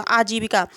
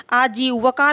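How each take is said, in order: First: आजीविका said aa-jee-vi-ka; correct vowel. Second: आजीविका said aa-jee-va-ka; wrong vowel. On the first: Teacher restating the correct word, आजीविका with clear vi. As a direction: keep short i in the vi of आजीविका. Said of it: "जीविका है". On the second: Teacher showing the error, आजीविका with va in the middle. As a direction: flatten vi to va in आजीविका. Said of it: "आजीविका नहीं है". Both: Shown as a demonstration.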